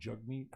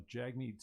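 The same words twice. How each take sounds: First: Jagmeet with an "uh" as in jug; alternative pronunciation. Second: Jagmeet with an "a" as in jag; first pronunciation attempt. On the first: Second try at the politician's name, Jagmeet said as "JUG-meet". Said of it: "I thought it was Jugmeet". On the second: Unsure how to say the politician's name, Jagmeet said as "JAG-meet". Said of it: "how do you say it?". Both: Shown as a demonstration.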